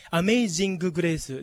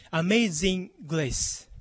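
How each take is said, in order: First: Amazing grace with a full "gu" and "su" vowel; katakana reading. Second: Amazing grace with the g merged into grace; linked English pronunciation. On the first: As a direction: say "amazing grace" syllable by syllable, a-me-i-jin-gu gu-re-i-su. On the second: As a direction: say "amazing grace" as a-mei-zin-greis, no added "gu". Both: Shown as a demonstration. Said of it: "ではなくて".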